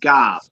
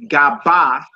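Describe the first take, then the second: First: The word ends on the bare consonant. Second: A vowel is added after the final consonant. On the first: The speaker calls it right. "We say gob" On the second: The speaker calls it wrong. "we don't say gaba"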